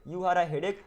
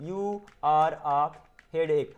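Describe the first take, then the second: First: Said in the usual way. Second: Very slow, with a gap before the last word. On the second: Shown as a demonstration. Teacher showing learners how to build the sentence, word by word. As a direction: dictate it one word at a time.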